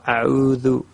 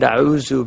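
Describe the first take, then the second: First: It is said with standard Arabic pronunciation. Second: It is said with an East Asian accent. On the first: The speaker calls it right. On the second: The speaker calls it wrong.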